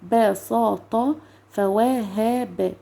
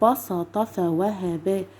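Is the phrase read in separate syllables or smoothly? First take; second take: separate syllables; smoothly. First: It is read slowly, syllable by syllable. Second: It is read smoothly in one go. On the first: "اقولها كده واحده واحده الاول" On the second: "وبعدين اجيبها كلها مره واحده ببساطه خالص"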